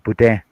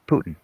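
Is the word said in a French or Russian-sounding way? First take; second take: French; Russian. First: It is said with a French-style accent. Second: It is said like the Russian surname. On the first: "you gotta have that French accent" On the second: "like the Russian president"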